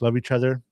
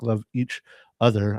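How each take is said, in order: First: The phrase is said quickly, run together. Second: The phrase is said slowly, words separated. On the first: It means loving everybody in general. "if you say it quickly" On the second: It means loving each individual intentionally. "if you break it down"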